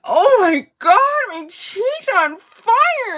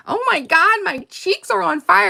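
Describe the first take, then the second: First: High, slow complaining Barbie voice; Barbie massaging sore cheeks; imitating Barbie. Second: High quoted Barbie line; playful movie quote voice; quoting Barbie. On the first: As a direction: stretch out fire like an aching doll. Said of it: "she's like". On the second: Retold or imitated. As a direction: lightly mimic Barbie's squeal. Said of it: "One of our favorite is".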